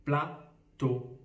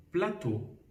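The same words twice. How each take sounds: First: Plateau as pla, clear pause, teau; split into syllables. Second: Said in the usual way. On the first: Shown as a demonstration. Teacher takes a word to count syllables, "plateau" split in two. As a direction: pull "plateau" apart into two beats. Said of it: "combien de syllabes". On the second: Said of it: "avec le mot".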